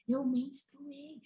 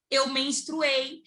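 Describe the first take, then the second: First: Very soft, drawn-out admission; retold in a tiny hushed voice; hushed confession. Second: Drawn-out admission at normal volume; retold slow, reluctant reveal; slow confession. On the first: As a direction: confess it under your breath, dragging the words. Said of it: "Eu falando baixinho". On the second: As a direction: let the confession out slowly, word by word. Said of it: "eu chorando".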